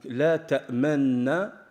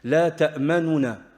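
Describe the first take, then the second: First: The n sounds merge with no vowel between. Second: A brief, partial u vowel follows the first n.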